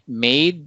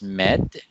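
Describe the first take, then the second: First: The vowel is a long A sound. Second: The vowel is a short E sound. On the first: The speaker calls it right. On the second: The speaker calls it wrong.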